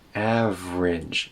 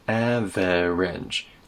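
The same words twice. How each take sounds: First: The middle vowel is dropped, giving two syllables. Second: The middle vowel is pronounced, giving three syllables. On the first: The speaker calls it right. "There's no e sound in the middle" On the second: The speaker calls it wrong. "It's not average"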